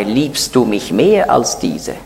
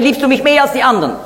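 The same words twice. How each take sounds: First: Slow, solemn question, weight on mehr. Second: Fast, high rattled-off question, mehr tossed off; quick aside quote. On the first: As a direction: ask it slowly with the word mehr leaned on. Jesus asks Peter solemnly. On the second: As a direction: rattle it off quickly, higher than the solemn take. Er sagt nicht mehr. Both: Retold or imitated.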